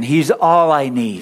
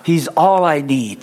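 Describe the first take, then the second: First: Slow and a bit louder, weight on all; slow call to repeat, firmer. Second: Slow, weight on all; slow call to repeat. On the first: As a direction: call it out again for the room. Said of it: "Say it again". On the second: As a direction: lead them to echo it. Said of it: "everybody say this after me". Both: Shown as a demonstration.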